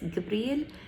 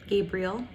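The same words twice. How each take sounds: First: The name is pronounced the Egyptian Arabic way. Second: The name is pronounced the English way. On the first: "when it's said in Egyptian" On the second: "Gabriel is the English way of saying it"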